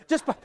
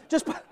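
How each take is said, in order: No difference in how they are said.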